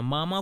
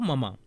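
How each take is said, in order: First: The first vowel is long. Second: The first vowel is short.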